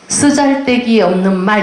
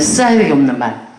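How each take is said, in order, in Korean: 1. 단어를 또렷하고 온전하게 발음해요. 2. 단어를 웅얼거리고 삼켜요.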